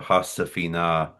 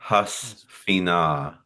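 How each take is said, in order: First: A short vowel separates the s and f. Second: The s and f come together without a vowel. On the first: The speaker calls it right. "is how I would say that" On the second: The speaker calls it wrong. "He says"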